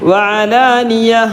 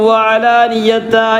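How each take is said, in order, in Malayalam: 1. വാക്ക് മൃദുവായ, നിശ്ശബ്ദ സ്വരമുള്ള h ശബ്ദത്തിലാണ് അവസാനിക്കുന്നത്. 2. വാക്ക് പൂർണ്ണമായ 'ta' അക്ഷരത്തിലാണ് അവസാനിക്കുന്നത്. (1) "ഹാത്താ സുക്കൂനുള്ള ഹ ആയിട്ട് മാറും" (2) "വഅലാനിയത എന്ന് പറയരുത്"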